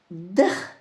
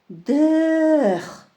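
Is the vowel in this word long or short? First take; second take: short; long. First: The vowel is said short and clipped. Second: The vowel is drawn out and long. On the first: It means to go. "Произносим коротко, кратко" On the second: It means to live. "А когда мы произносим подольше"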